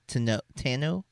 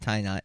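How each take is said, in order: First: The final T of the name is silent. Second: The final T of the name is sounded. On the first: The speaker calls it right. "you don't pronounce the T" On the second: The speaker calls it wrong. "it's not tie knot"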